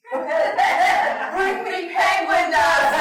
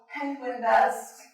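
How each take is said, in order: First: Loud, slow shout with laughter; mock demand. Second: Said in the usual way. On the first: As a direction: bellow it like a comic tantrum. Demanding penguin dust, crowd laughing.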